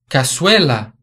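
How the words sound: The z is pronounced as an s sound. This is how it is said in Latin America.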